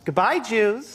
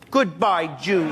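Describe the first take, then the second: First: It is said sweetly, without anger. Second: It is said with more anger.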